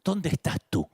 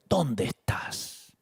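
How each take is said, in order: First: Said in the usual way. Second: Drawn out and hushed; God gently asking Adam, slow and hushed; very slow tender question. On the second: Shown as a demonstration. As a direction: ask it slowly, softly, as a gentle call. Quoting God, drawn out softly.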